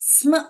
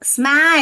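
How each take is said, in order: First: The cluster is said without a full vowel. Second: The cluster is followed by a full 'a' vowel. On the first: The speaker calls it right. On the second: The speaker calls it wrong.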